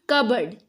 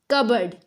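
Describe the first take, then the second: Both takes have the same delivery.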